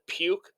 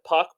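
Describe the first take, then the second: First: The name has a long vowel, like 'duke'. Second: The name has a short vowel, like 'duck'. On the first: He made the speaker feel sick. "I'm going to pronounce it Puke" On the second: This is the name's usual pronunciation. "I think you pronounce it Puck"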